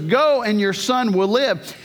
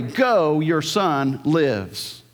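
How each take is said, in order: First: Said in the usual way. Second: "lives" said very slowly and drawn out; present tense reading. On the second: Shown as a demonstration. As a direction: lean hard on "lives". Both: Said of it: "so literally would read this way".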